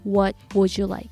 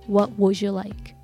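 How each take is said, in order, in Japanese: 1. 'would' は w なしの普通の母音で始まります。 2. 'would' ははっきりした w の半母音で始まります。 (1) "じゃなくて" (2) "W の音を忘れないようにしてください"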